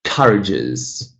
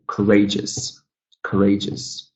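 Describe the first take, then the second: First: "courageous" wrongly stressed as COUR-ageous; wrong first-syllable stress. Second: "courageous" with RAGE stressed, cou-RA-geous; second-syllable stress. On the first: Teacher showing what not to say, first-syllable stress on "courageous". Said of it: "we're not saying courageous". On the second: Teacher showing the correct form, second-syllable stress on "courageous". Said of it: "so ray is the stressed syllable". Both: Shown as a demonstration.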